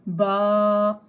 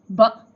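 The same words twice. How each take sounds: First: The vowel is drawn out long. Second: The vowel is cut off abruptly. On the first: "Stretching means ba" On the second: "suddenly pausing means ba"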